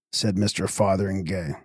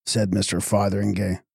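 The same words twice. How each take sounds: The two takes are said the same way.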